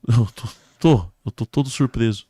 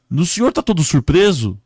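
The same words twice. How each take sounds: First: Victim answering. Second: High, loud inquiry; rescuer questioning. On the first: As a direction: stumble into repeating it back. Victim echoes the question. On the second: Man questioning a crash victim, loud and high. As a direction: call out the obvious question. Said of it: "o homem chegou pra ele e falou". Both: Acted.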